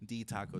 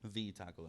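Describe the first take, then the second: First: The first word begins with a d sound. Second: The first word begins with a th sound. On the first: It is how young children said the name. "they couldn't pronounce the T H on that part, so they kept saying D" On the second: It means this is the one and only taco place. "like T H E E"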